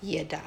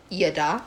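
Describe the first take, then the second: First: Breathy whispered "Yada"; soft whispered "Yada", tried out; whispered word. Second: A suggestive "Yada" with a rise; flirty, rising "Yada"; seductive come-on. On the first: Shown as a demonstration. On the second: Pretend. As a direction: purr "Yada" as an invitation. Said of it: "I go".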